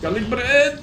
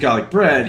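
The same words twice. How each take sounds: First: The final D is repeated, doubled. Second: The final D is said once, plainly. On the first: "the like repeated D" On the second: "when I say I want some garlic bread"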